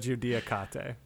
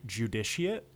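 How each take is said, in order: First: The final E is sounded. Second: The final E is silent. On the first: This is the name's own pronunciation, with no silent letters. "the E at the end has to be pronounced, and the C is a K sound" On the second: This is how an English speaker would say it. "in English we would pronounce it judiciate"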